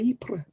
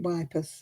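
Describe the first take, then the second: First: The name begins with a vowel sound. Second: The name begins with a 'w' sound. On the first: The speaker calls it right. "no, it's called Ypres" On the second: The speaker calls it wrong. "he would pronounce it wipers"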